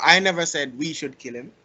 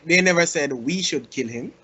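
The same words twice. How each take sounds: First: "I" hit hardest, rest even; stress on I. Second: "they" hit hardest, rest even; stress on they. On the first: Showing how stress changes meaning, "I" stressed. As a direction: lean on the word "I" at the start. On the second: Showing how stress changes meaning, "they" stressed. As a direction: lean on the word "they" at the start. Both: Shown as a demonstration. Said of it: "the way how you stress a certain word".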